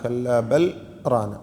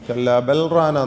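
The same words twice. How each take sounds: First: The voice stops briefly after bal, no breath. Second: Bal runs straight into rana without a break. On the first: The speaker calls it right. "മറിച്ച് സക്ത ചെയ്യണം" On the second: The speaker calls it wrong. "എന്നല്ല"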